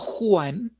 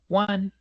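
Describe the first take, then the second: First: It is said like the Spanish name Juan. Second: It is said as the English word one. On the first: The speaker calls it wrong. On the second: The speaker calls it right.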